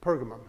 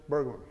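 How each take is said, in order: First: The name begins with a P sound. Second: The name begins with a B sound. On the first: "pronounced like with a P" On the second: "What did he say?"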